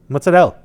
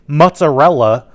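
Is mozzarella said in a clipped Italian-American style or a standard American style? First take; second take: Italian-American; standard American. First: Mozzarella is said in a clipped Italian-American way. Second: Mozzarella is said in a standard American way. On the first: The speaker calls it right. "that's how you pronounce it" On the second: The speaker calls it wrong. "like a mook"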